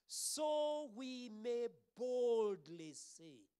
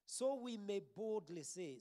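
First: Very slow, loud, high declaration; bold proclamation. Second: Said in the usual way. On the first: Real, not acted. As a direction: proclaim it boldly, stretching each word. Rereads the verse boldly.

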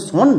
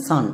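First: "সন" with an o vowel; correct "সন" sound. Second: "সান" with an open a vowel; wrong "সান" sound. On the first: Teacher asks which sound is right, careful "সন". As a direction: say "সন" with a rounded o, not a. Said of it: "দন্ত নয়ে একটু টান পড়বে". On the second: Teacher offers the mistaken option, open-vowel "সান". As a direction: say "সান" with a in place of o. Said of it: "অনেকেই একে ভুল উচ্চারণ করছো". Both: Shown as a demonstration.

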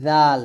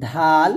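First: Tongue tip to upper teeth, light জাল; correct Arabic dhal. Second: ধাল with a hard aspirated dh stop; English-spelling reading. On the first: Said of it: "আরবি উচ্চারণটা হবে". (জাল পাতলা আরবি উচ্চারণে) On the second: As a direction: say ধাল as spelt, breathy-released d. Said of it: "English উচ্চারণটা লেখছে". (ধাল, ইংরেজি বানান অনুযায়ী) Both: Shown as a demonstration.

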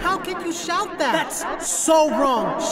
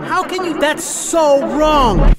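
First: A hint of indignation, HOW lifted, so drawn out slow; rehearsed retort. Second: Louder, so wrong stretched slow and hard; firmer retort. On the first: Boy replaying what he wished he'd told the heckler, mild indignation. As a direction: try the comeback, still half to himself. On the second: Retold or imitated. Boy rehearsing his comeback to the heckler, louder and firm. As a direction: finally say it like you mean it. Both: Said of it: "I wanted to say so much".

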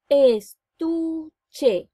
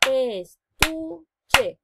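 First: "Estuche" said once, loud and whole; "Estuche" spoken as one whole word; plain. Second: "Estuche" split as Es-tu-che for clapping; "Estuche" spoken in syllables to clap along. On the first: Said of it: "Vamos a segmentar". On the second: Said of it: "Vamos con las manitos". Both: Shown as a demonstration.

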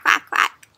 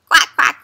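First: Breathy whispered quacks; whispered duck quack. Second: Put-on loud, bright quacking for the kids; playful loud duck call. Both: Shown as a demonstration. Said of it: "Let's make a duck sound".

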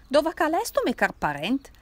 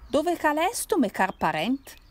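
First: Put-on louder Piedmontese drunk repeating his call; strong Turin accent. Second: Put-on loud Piedmontese drunk calling out; strong Turin accent. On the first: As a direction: bellow it again in thick Turinese. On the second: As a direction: shout it in thick Turinese dialect. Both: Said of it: "con stretto accento torinese".

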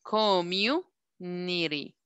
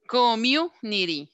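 First: "Community" very slow, stretched, pausing before "nity"; drawn-out syllables. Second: "Community" measured out, with weight on "mu"; syllables marked out. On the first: Teacher counting syllables for the class, "Community" very slow and broken apart. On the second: Teacher modelling the word for the class, "Community" in deliberate syllables with a strong "mu". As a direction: say "Community" deliberately, punching "mu", then falling. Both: Shown as a demonstration. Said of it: "Tiene cuatro".

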